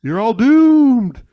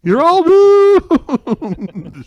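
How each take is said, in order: First: Slow, loud, high doom-laden warning; ominous warning. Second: Very slow, much louder and higher doom drawl; ominous warning. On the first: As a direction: drawl it out like a crazy prophet. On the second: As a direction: stretch it out like a wailing prophet. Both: Retold or imitated. Impression of Crazy Ralph's warning.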